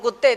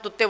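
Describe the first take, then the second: First: The word begins with a k sound. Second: The word begins with a t sound. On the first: The grown child says the word properly. "सही जबान" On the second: A small child is lisping the word. "तोतली ज़बान में"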